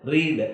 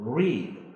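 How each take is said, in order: First: The r is tapped against the roof. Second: The r is smooth, the tongue not touching. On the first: The speaker calls it wrong. "എന്നല്ല ഞാൻ പറഞ്ഞത്" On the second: The speaker calls it right. "നാക്ക് മേലോട്ട് വളച്ചിട്ട് മേളിൽ തൊടരുത്"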